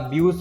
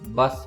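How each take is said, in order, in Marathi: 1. स्वर 'yoo' आवाजाचा आहे. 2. स्वर लहान 'uh' आवाजाचा आहे. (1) "याला ब्यूस म्हणायचं नाही" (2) "बस म्हणायचं"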